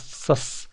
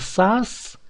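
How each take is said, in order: First: The vowel is said short. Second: The vowel is said long and full. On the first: The speaker calls it right. "надо говорить коротко" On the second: The speaker calls it wrong. "Не сас"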